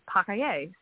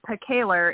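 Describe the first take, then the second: First: The name is said with a French pronunciation. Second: The name is said with an English-style pronunciation. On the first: This is how the name is said in its original language. "but actually in French is" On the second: This is how the family says the name. "is how my husband's family says it"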